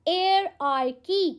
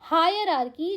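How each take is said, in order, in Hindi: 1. यह शब्द 'air' ध्वनि से शुरू होता है। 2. यह शब्द 'higher' ध्वनि से शुरू होता है। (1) "इट्स एयर वाला प्रोनाउंसिएशन" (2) "जो आप हायर हायर वाला प्रोनाउंसिएशन लेके आते हो ना, ये गलत है।"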